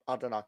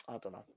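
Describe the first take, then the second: First: Said in the usual way. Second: Trailing mutter. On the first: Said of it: "musing aloud about the league table". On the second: Real, not acted. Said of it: "repeats it under his breath".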